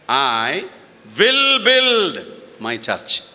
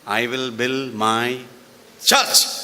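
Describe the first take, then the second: First: The stress is on will build. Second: The stress is on church.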